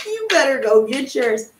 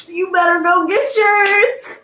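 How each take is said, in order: First: Said in the usual way. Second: Excited. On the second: Real, not acted. Hyping her hoodies.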